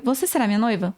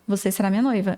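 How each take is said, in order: First: "Você será minha noiva" asked, pitch lifted within the phrase; Portuguese question tune on "Você será minha noiva"; question intonation. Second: "Você será minha noiva" stated, lower with a falling end; falling statement tune on "Você será minha noiva"; statement intonation. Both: Shown as a demonstration. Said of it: "só muda o jeito da gente falar".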